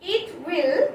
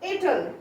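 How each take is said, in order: First: It is said as two full words. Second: It is said as one contracted word.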